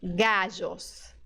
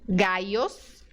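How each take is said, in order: First: The middle consonant sounds like s in measure. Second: The middle consonant sounds like English y. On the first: "O segundo som é o som J" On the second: "com som de I mesmo do português"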